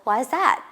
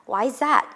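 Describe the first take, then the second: First: The words are run together smoothly. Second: The words are run together smoothly.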